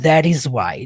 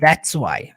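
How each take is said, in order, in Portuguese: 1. Cada palavra é pronunciada separadamente e de forma leve. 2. As palavras 'that is' se juntam em uma única sílaba. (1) "Ou você pode falar that is why, de modo leve" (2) "Você pode falar that's why. É como eu diria"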